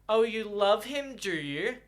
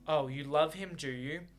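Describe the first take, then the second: First: It is said in a patronizing tone. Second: It is said in a fairly neutral tone.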